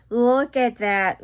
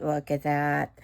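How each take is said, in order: First: Excited. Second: Said in the usual way. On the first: Real, not acted.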